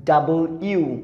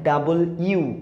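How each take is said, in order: The two takes are said the same way.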